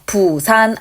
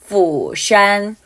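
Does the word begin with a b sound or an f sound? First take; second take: b sound; f sound. First: The word begins with a b-like stop sound. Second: The word begins with an f sound. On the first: The speaker calls it wrong. "부산 아니고요" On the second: The speaker calls it right. "F 발음이기 때문에요. 윗니가 아랫입술을 깨물어야"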